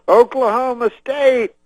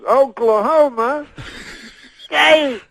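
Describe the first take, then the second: First: Much higher, louder rally shout; Cosby revving up the stadium crowd with a high shout; Cosby crowd call. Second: High, loud, drawn out slow call; Cosby stretching the team name for the crowd, slow and loud; said slower. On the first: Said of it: "He goes". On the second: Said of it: "then he says it slower". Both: Retold or imitated.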